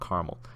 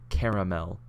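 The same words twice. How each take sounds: First: The word is said with two syllables. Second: The word is said with three syllables. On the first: "not caramel" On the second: "I use the three syllable caramel"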